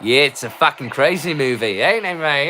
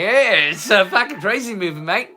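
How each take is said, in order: First: Put-on a light, loose Australian accent. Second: Higher, hammed-up Australian accent. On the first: Drunk vlogger to his viewers, a mild Australian accent. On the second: Drunk vlogger repeating the line, higher hammed-up Australian accent. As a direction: push the Australian accent up a notch, higher and broader. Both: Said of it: "My Australian accent isn't great".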